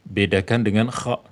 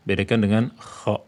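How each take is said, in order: Both takes have the same delivery.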